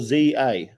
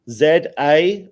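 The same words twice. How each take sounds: First: The letter Z is said as zee. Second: The letter Z is said as zed.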